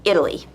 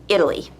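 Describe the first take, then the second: First: The middle consonant is a soft D sound. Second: The middle consonant is a soft D sound.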